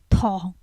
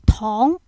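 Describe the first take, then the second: First: It is said with the tone meaning sugar. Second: It is said with the tone meaning candy. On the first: It means sugar. "when you say sugar, the tone will have a bit different" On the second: It means candy or sweets. "Instead of tong"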